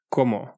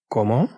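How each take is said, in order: First: Said in the usual way. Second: Cómo? with a rising question tune. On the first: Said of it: "There is a different meaning". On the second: Shown as a demonstration. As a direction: ask "Cómo?", lifting the last syllable. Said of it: "when used as questions".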